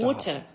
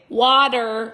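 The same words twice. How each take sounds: First: It is said with an Australian accent. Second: It is said with an American accent. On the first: This is the parents' home way of saying it. The speaker calls it right. "we say water ... their Australian accent" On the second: This is the way the children learned locally. The speaker calls it wrong. "we do not say water"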